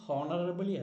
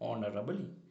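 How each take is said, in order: First: The word starts with an audible h sound. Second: The word starts with a vowel, no h. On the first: The speaker calls it wrong. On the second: The speaker calls it right.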